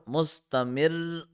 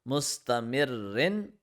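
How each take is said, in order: First: The final vowel ending is dropped. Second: The final vowel ending is pronounced. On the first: The reciter stops on this word. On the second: The reciter continues without stopping.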